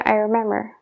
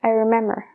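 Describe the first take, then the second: Both takes have the same delivery.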